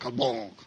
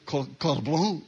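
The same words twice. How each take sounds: First: The end of the word is swallowed. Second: The end of the word is fully sounded. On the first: The speaker calls it right. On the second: The speaker calls it wrong.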